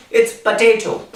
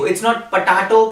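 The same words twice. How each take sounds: First: "potato" with the ay sound, po-TAY-to; right way. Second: "potato" with a broad a, po-TAH-to; the mistaken "potato", broad middle a; wrong way. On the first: Teacher models the right "potato" for students, ay vowel. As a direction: correct "potato", middle vowel ay. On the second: Teacher shows students the wrong "potato", broad a. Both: Shown as a demonstration.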